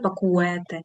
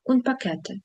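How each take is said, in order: First: A 'w' sound follows the k. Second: No 'w' sound follows the k. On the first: The speaker calls it wrong. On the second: The speaker calls it right.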